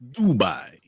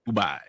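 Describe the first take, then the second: First: The word is said slowly. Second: The word is said quickly. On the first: The speaker calls it right. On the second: The speaker calls it wrong.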